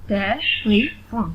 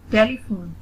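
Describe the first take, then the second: First: "टेलीफोन" slowly in three separate beats; split into syllables. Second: Said in the usual way. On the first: Shown as a demonstration. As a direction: gap between each syllable of "टेलीफोन". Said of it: "split in the syllables". ("टेलीफोन" को रुक-रुककर तीन हिस्सों में) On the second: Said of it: "read the word".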